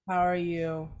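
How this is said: It is said flat, in a monotone.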